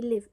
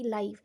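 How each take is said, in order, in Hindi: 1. स्वर छोटा है, 'give' जैसा। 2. स्वर लंबा है, 'five' जैसा। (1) "यहाँ पे मैं वर्ड लिव बोल रही हूँ" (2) "यहाँ भी स्पेलिंग सेम है"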